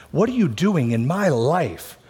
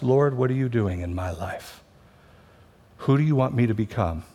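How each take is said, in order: First: Raised, accusing question to God; frustrated complaint. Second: Humble surrender. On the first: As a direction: demand it like a hurt, frustrated believer. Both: Pretend. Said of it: "we can say the same sentence fr-, from two different hearts".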